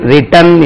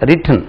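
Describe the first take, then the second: First: A full vowel is heard before the final n. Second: The vowel before the final n is reduced. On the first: The speaker calls it wrong. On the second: The speaker calls it right.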